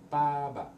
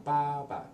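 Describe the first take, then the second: First: "ba ba" with the second "ba" light and short, neutral tone; fifth tone. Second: "ba ba" held high and level on both syllables; first tone. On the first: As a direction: stress the first "ba", let the second fall away unstressed. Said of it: "and this is the fifth tone". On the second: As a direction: keep both "ba" flat and high like a line. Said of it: "this is first tone". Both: Shown as a demonstration.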